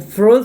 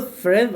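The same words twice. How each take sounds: First: Freud said slowly as "frod"; tentative pronunciation. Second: Freud said as "Fred", with an e; second guess at Freud, rhyming with bed; alternative pronunciation. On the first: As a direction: try "Freud" with an o sound, unsure. (pronunciación dudosa de Freud como "frod") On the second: (pronunciación dudosa de Freud como "Fred") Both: Shown as a demonstration. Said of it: "algo así, no sé".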